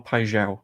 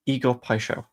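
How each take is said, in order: First: "Paixão" said with a buzzing ZH in the middle; "Paixão" with zh as in measure; ZH pronunciation. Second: "Paixão" said with a SH in the middle; "Paixão" with an unvoiced sh sound; soft SH pronunciation. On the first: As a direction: say "Paixão" as pie-ZHOW. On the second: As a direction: say "Paixão" as pie-SHOW. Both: Shown as a demonstration. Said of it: "I think it's a zh".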